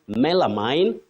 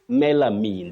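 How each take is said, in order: First: The final vowel glides into another vowel sound. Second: The final vowel stays steady without gliding. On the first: The speaker calls it wrong. "many people say melamine" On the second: The speaker calls it right. "There is no vowel glide at the end"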